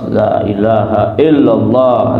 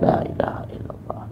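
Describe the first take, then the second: First: The phrase is said loudly and clearly. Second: The phrase is said quietly and softly. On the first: The speaker calls it right. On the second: The speaker calls it wrong.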